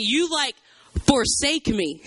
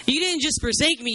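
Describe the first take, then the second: First: "forsake" set apart after a pause; stress on FORSAKE. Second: Said in the usual way. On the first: Acted. Jeremiah alone accusing God, heavy stress on "forsake". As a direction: hold back, then land heavily on "forsake". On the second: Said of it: "just let him have it".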